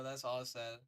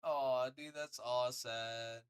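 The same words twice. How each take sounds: First: Said in the usual way. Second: Slow, louder drawn-out aw of pity. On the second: Real, not acted. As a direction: stretch it out in sympathy.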